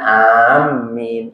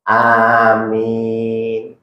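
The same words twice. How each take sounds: First: The m is doubled and held longer. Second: The m is short and the vowel is long. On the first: The speaker calls it wrong. "Jangan amin" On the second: The speaker calls it right. "Khafifatul mim, dibaca ringatnya mim, tanpa ditasdid maksudnya. Mim bil maddi, dan dibaca panjang"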